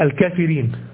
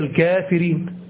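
First: The long 'aa' vowel after the 'k' is missing. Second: The long 'aa' vowel after the 'k' is present. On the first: It is read by the written spelling. The speaker calls it wrong. "لو هو نطقها حسب النطق الإعلامي بتاع الإملاء بتاعه فينطقها" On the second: It is read as it is really pronounced. The speaker calls it right. "لكن هي"

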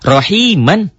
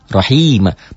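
First: The word ends with a short vowel plus n. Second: The word ends with a lengthened vowel, no n. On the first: This is the original form when reading on. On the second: This is the form used when stopping here.

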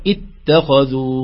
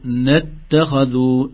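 First: It starts with a glottal stop and an i vowel. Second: It links from a preceding n, with no glottal stop. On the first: Recitation starts fresh at this word. "بهمزة مكسورة" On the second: The word is joined to the previous verse. "إذا وصلنا ما في ألف أبدا"

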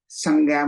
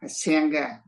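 First: The first vowel is an open 'a' sound. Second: The first vowel is an 'e' sound. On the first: This is the local way of reading it. "mình đọc là a" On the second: This is how Americans read it. "ông đọc là âm e hết á"

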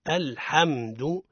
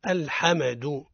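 First: The m sound is smooth without bounce. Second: The m sound has an added bounce. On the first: The speaker calls it right. "الصواب هو الحمد" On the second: The speaker calls it wrong. "ويقع الخطأ في الميم من أوجه قلقلة الميم، يقولون الحمد هذا خطأ"

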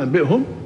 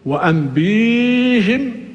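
First: A glottal stop follows the b sound. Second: The b is followed by a long ee. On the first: "القراءة المعروفة" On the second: "بمد الباء"

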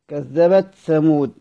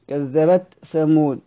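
No difference in how they are said.

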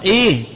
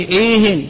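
First: The word ends without an added n sound. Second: The word ends with an added n sound. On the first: It asks for more of a specific talk. "إيه فهو معرفة" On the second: It asks for more talk on any topic. "فإذا وجدت التنوين نطقت به إيه فهو نكرة"

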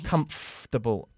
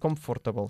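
First: The middle 'or' sound is nearly dropped. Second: The middle 'or' sound is fully pronounced. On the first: The speaker calls it right. "Casi omitimos el sonido de OR en medio" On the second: The speaker calls it wrong. "no se dice comfortable"

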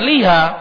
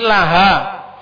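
First: The vowel after the L is "i". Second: The vowel after the L is "a". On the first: The speaker calls it wrong. "jangan liha" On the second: The speaker calls it right. "tapi laha"

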